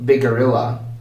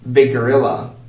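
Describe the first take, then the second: First: One shared G joins the words quickly. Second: One shared G joins the words quickly.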